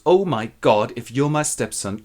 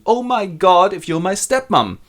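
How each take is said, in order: First: Hushed dismay. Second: Higher, louder echoed shock; loud dismay. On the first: Lovers discover family tie, woman first. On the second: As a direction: echo the horror at a higher pitch. Lover echoes the realization. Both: Acted.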